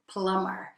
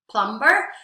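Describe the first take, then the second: First: The B in the middle is silent. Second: The B in the middle is sounded. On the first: The speaker calls it right. "we pronounce it plumber" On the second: The speaker calls it wrong. "It's actually written plumber"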